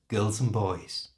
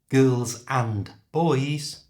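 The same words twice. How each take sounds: First: The D sound in and is left out. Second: The D sound in and is clearly pronounced.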